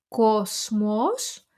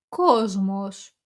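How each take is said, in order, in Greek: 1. Το μεσαίο σύμφωνο ακούγεται σαν s. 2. Το μεσαίο σύμφωνο ακούγεται σαν z. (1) "γράφουμε κόσμος" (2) "αλλά λέμε κόσμος"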